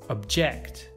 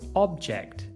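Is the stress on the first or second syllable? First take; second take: second; first. First: The stress is on the second syllable. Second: The stress is on the first syllable. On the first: It is used as a verb. "you should stress the second syllable" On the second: It is used as a noun. "you should stress the first"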